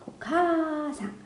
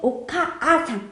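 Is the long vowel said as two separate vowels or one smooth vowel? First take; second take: one smooth; two separate. First: The long vowel is one smooth lengthened sound. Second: The long vowel is split into two separate vowels. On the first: The speaker calls it right. "앞에 카를 길게 발음하는 겁니다" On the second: The speaker calls it wrong. "그렇게 발음을 않고요"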